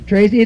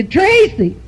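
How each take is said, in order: First: Said in the usual way. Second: Called out high across the room; calling out. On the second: Retold or imitated. Truck driver hollers across the whorehouse to Tracy, called out high.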